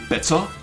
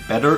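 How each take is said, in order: First: The word has a hard German t. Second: The word has a soft American t. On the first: "I say" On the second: "instead of saying"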